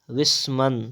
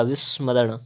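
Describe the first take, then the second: First: विस्मरण ending in dental n; plain n closing विस्मरण; wrong pronunciation. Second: विस्मरण ending in retroflex ṇ; correct pronunciation. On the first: Teacher reading the error, विस्मरण with dental n. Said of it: "तो हो जाएगा". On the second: Teacher correcting, विस्मरण with retroflex ṇ. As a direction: curl back closing विस्मरण. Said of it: "क्या हो जाएगा". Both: Shown as a demonstration.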